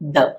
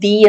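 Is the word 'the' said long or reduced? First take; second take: reduced; long. First: The word is said in a short, reduced form. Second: The word is said in its full, long form. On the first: "രണ്ട് വീക്ക് forms ഉണ്ട് ഒന്ന് the" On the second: "strong form എന്ന് പറയുന്നത് the ആണ്"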